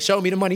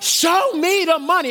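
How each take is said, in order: First: It is said flatly, without much force. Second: It is said forcefully, with conviction. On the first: The speaker does not really mean it. The speaker calls it wrong. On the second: The speaker truly means it. The speaker calls it right.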